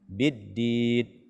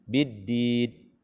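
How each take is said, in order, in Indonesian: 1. Bunyi n akhir dipotong cepat. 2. Bunyi n akhir dipotong cepat.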